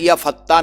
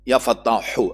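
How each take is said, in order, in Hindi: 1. शब्द के अंत में 'h' की आवाज़ नहीं है। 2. शब्द के अंत में स्पष्ट 'h' की आवाज़ है। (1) "कोशिश करें या फत्ता न पढ़ें" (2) "आखिर में है निकालें"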